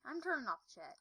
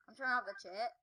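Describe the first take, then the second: First: Slurred, sleepy speech; groggy from anesthesia. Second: Slurred, drowsy words; groggy from anesthesia. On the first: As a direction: talk like you just woke from anesthesia. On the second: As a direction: mumble like you are half sedated. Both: Real, not acted. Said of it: "How come I'm talking really weird?".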